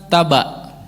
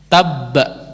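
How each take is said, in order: First: The b is short and single, without pressure. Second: The b is doubled and pressed with emphasis. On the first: The speaker calls it wrong. "Bukan taba" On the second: The speaker calls it right. "Masuk kepada ba itu di ditekan sedikit"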